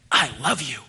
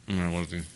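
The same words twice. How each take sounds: First: Heartfelt. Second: A low, grudging "Mm, I love you"; begrudging. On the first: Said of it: "bear hug him". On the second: Dad saying it to his kids reluctantly. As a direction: mumble it like you'd rather not. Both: Shown as a demonstration.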